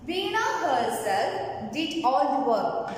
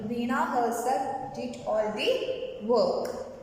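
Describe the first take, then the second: First: Said in the usual way. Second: Slower, spaced-out teacher's reading; slow repetition. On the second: Shown as a demonstration. Teacher repeating an example sentence for the class, slow and measured. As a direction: read it slowly, phrase by phrase.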